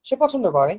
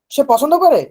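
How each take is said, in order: First: Plain statement falling on "করে"; falling tune. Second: Higher and louder, asking with a swing on "করে"; louder question tune. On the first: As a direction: let "করে" drop as a simple fact. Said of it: "falling tune at the end". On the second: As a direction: push "করে" up as a question, then drop. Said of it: "একটু জোরে বলতে হবে". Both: Shown as a demonstration.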